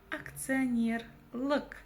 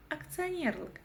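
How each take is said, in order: First: "Акционер лк" slow, with the ending set apart; slow teaching take of "Акционер лк"; syllable by syllable. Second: Said in the usual way. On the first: Shown as a demonstration. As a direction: stretch "Акционер" and detach "лк". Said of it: "нужно разделить по слогам".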